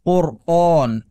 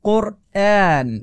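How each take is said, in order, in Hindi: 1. हमज़ा भारी है, o जैसी आवाज़ के साथ। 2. हमज़ा बारीक है, e जैसी आवाज़ के साथ। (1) "ना कि कुरआन" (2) "ए कुरआन"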